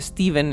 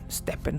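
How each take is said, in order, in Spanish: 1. La consonante del medio es un sonido v. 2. La consonante del medio es un sonido p. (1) "no creo que se pronuncie Steven" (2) "Stepen supongo que es la pronunciación"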